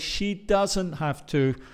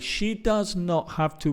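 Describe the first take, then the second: First: Does not is contracted into one word. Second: Does not is said as two full words. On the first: The speaker calls it right. "We say" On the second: The speaker calls it wrong. "We don't say"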